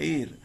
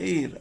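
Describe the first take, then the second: Both takes have the same delivery.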